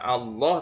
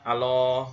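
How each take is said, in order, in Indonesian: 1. Huruf L pada Allah dibaca panjang dan ganda. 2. Huruf L pada Allah dibaca pendek dan tunggal. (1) "harusnya membaca" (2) "Tasdidnya hilang"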